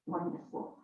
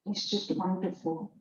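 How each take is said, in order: First: Breathed, whispered echo of wonderful; soft whisper. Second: Said in the usual way. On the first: Real, not acted. Speaker praising her course, echoing wonderful in a whisper. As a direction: let wonderful fade to a whisper. Repeats wonderful, then drops away.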